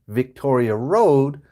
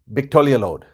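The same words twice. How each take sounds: First: The two words are said separately and clearly. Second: The two words run together very fast. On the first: The speaker calls it right. "instead of saying two words" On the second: The speaker calls it wrong. "she said them all together really fast"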